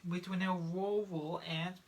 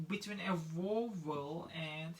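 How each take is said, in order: Both takes have the same delivery.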